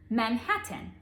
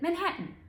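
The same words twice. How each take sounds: First: The T is pronounced as a crisp, clear T. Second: The T is softened, sounding more like a D. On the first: "I didn't call Manhattan Manhattan" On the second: "I called it Manhattan. ... They turn into D's"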